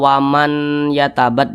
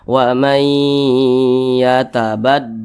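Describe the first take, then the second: First: The n is pronounced clearly before the y. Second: The n merges into a nasalized y. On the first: The speaker calls it wrong. "Jangan dibaca waman yatabat, jangan" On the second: The speaker calls it right. "huruf nunnya ini dilebur atau dihilangkan"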